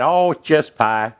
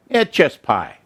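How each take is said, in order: First: Slow, drawn-out Southern drawl on "just pie"; lightly imitating a Southern accent, stretched slow; mock Southern accent. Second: Said in the usual way. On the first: Imitating how Southerners said just pie, mock Southern accent. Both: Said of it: "Southern accent".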